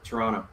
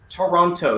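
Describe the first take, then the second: First: The word is run together, with the T softened. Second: Every syllable is said clearly, with a crisp T. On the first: This is how locals say the city's name. "in Canada we say" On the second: This is how outsiders say the city's name. "they emphasize the T. ... It's like it's spelled"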